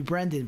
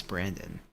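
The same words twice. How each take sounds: First: "Brendan" with a short E as in "pen"; "Brendan" as BREN-dun; BREN-dan pronunciation. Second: "Brandon" with a short A as in "bran"; "Brandon" as BRAN-dun; BRAN-don pronunciation. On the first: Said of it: "Maybe it's Brandon". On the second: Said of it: "I'm calling you Brendan". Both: Shown as a demonstration.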